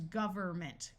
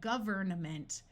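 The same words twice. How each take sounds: First: The N sound in the middle is dropped. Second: The N sound in the middle is pronounced. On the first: "with the N disappearing" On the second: "rather than saying government"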